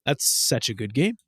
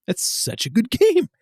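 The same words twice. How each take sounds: First: Said in the usual way. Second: Much higher-pitched, laughing enthusiasm; gushing praise. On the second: Real, not acted. Fan praising Castlevania Legacy of Darkness, gushing. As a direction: gush it, voice climbing into a laugh.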